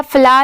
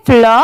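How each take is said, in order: First: "फ्ला" with an open aa vowel, as in flower; wrong pronunciation. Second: "फ्लॉ" with a rounded aw vowel, pitched lower; correct pronunciation. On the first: Teacher showing learners the reading to avoid, wrong open-vowel "फ्ला". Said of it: "फ्ला नहीं पढ़ेंगे". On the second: Teacher correcting learners' reading of florist, rounded-vowel "फ्लॉ". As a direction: say "फ्लॉ" low, with an aw sound. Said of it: "फ्लॉ की आएगी". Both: Shown as a demonstration.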